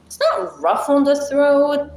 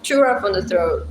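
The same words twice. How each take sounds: First: Not punched higher and louder; stress on not. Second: Said in the usual way. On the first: Shown as a demonstration. Correcting chat about Arabic sounds, stress on not. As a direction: lift and hit the word not to correct herself.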